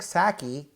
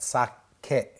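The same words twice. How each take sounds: First: It is said with English-style vowels and stress. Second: It is said with even, Japanese-style syllables. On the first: The speaker calls it wrong. "We didn't drink sake" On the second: The speaker calls it right. "we had sake"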